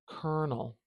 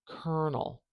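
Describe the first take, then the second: No difference in how they are said.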